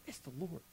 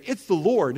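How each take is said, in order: First: Almost silent, just under the breath; quietly to himself. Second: Louder, announcing it with conviction. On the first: Pastor showing he can just think it, hushed. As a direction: say It's the Lord inwardly, barely voiced. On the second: Pastor showing the congregation the spoken way, loud. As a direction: proclaim It's the Lord for all to hear. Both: Shown as a demonstration. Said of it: "I don't have to yell it out".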